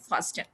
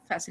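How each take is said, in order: First: The word is said with a t sound. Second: The word is said without a t sound. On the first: The speaker calls it wrong. "not fasten" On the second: The speaker calls it right. "जैसे आप सुनते हैं fasten your seat"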